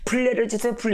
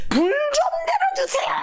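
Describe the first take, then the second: First: Mock prayer at an ordinary volume; imitated feeble plea. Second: Crying out loudly. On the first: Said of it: "이러지 말고". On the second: Shown as a demonstration. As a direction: demonstrate a full-throated plea, voice soaring. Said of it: "큰 소리로 해, 큰 소리로".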